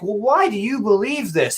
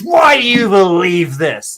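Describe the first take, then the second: First: It sounds calm and genuinely curious. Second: It sounds annoyed, accusatory and interrogating.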